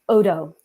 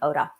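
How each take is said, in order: First: The name ends in an 'oh' vowel. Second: The name ends in an 'ah' vowel. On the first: The speaker calls it right. "There we go" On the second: The speaker calls it wrong. "I don't know why I keep saying Oda"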